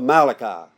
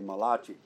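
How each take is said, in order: First: The name is said with an ordinary English pronunciation. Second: The name is said with an Italian-sounding pronunciation.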